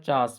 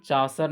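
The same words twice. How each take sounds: First: चार्ल्स said as one syllable, chaas; चार्ल्स ending straight on s, like chaas; recommended one-syllable pronunciation. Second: चासर with an audible final r; rejected two-syllable pronunciation. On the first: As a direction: drop the r and l in चार्ल्स, just chaas. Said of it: "चार्ल्स पढ़ते हैं". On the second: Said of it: "चासर नहीं पढ़ते हैं". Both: Shown as a demonstration.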